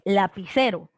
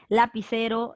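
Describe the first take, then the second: First: The stress falls on the second-to-last syllable. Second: The stress falls on a different syllable. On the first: The speaker calls it right. "Tú dices lapicero ... la fuerza de voz está aquí, en la penúltima" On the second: The speaker calls it wrong. "no dices lapicero"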